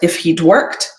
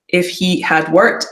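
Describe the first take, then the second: First: The word had is contracted to 'd. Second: The word had is said in full.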